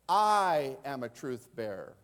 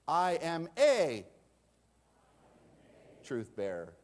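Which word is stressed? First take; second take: I; a. First: The stress is on "I". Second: The stress is on "a".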